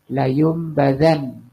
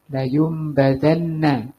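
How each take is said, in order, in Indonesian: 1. Kata itu berakhir dengan n tunggal tanpa vokal. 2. Kata itu berakhir dengan n ganda ditambah a. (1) "Kalau disukun bunyinya gimana?" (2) "Ini bunyinya gimana?"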